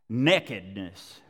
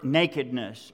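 First: It is said in a Texas accent. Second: It is said in a standard accent.

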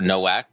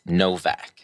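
First: The name starts with a W sound. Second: The name starts with a V sound. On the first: The speaker calls it wrong. "a lot of people mistake it for Nowak" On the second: The speaker calls it right. "the W actually makes that sound"

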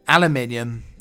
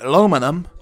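First: It is said the British way, five syllables. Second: It is said the American way, four syllables.

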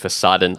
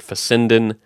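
First: The middle syllable sounds like 'sah'. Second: The middle syllable sounds like 'sen'. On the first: The speaker calls it right. "that's the German word for facade, is fasaden" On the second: The speaker calls it wrong. "I kept saying the word fassenden"

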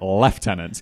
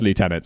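First: The word is said with a British pronunciation. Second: The word is said with an American pronunciation. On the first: The speaker calls it right. "everyone else would have no problem pronouncing it lieutenant" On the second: The speaker calls it wrong. "you're not an American"

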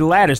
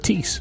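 First: The name ends like the word lettuce. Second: The name ends like the word police. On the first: This is the name's real form. "the girl's name would be Lattice" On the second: This is how people say the name. "They call her Latisse. They actually mispronounced her name"

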